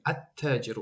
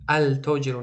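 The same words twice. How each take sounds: First: التاجر with the l dropped, at-tajir; correct sun-letter pronunciation. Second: التاجر with a clear l sound, al-tajir; wrong pronunciation with the l. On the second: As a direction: say التاجر as al-tajir, l fully pronounced. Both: Shown as a demonstration.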